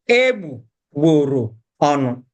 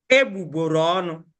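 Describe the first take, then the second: First: "Egbugboro ọnụ" in separate, deliberate chunks, lower; slowed down. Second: "Egbugboro ọnụ" quickly, in one unbroken run; joined together. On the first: Teacher slowing down for learners, "Egbugboro ọnụ" piece by piece. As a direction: break "Egbugboro ọnụ" into egbu, gboro, ọnụ. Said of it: "slow down when you're pronouncing it". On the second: Teacher showing learners the joined pronunciation, "Egbugboro ọnụ" run together fast. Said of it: "Join it together". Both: Shown as a demonstration.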